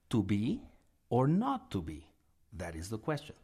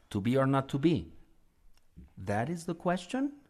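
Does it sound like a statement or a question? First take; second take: statement; question. First: It ends as a statement, stressing to be. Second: It ends as a question, rising at the end.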